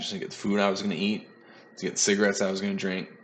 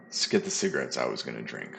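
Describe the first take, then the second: First: Rattled off fast in passing; quick run-through. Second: Repeated much lower, as a wry self-correction; deadpan repeat. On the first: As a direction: toss the line off quickly, half joking. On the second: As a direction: drop the pitch and land the joke dryly. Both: Real, not acted. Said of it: "Come on now".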